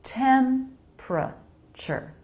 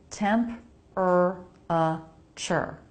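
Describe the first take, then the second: First: "Temperature" as "temp-ruh-chur", slow; "Temperature" in three syllables, C H for T; three syllables, slowly. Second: "Temp-er-a-ture" spelled out in four slow syllables; four syllables, slowly. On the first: Teacher modelling the American "Temperature" slowly. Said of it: "make this just three". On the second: Teacher showing the letter-based "Temp-er-a-ture". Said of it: "looks like it should be four syllables". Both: Shown as a demonstration.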